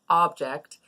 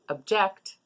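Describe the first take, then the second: First: The stress is on the first syllable. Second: The stress is on the second syllable. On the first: It is the noun, a thing. "where we put the stress on the first syllable" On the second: It is the verb, to oppose. "where we put the stress on the second syllable"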